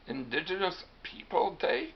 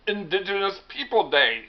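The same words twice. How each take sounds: First: Higher-pitched questioning repeat with rising end; incredulous echo. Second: Higher, louder announcement ending on a fall; announcing a name. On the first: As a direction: echo the name back in disbelief. Hiawatha questions the holiday's name. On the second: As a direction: announce the holiday's name as a statement. Medium announces holiday name in skit. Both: Acted.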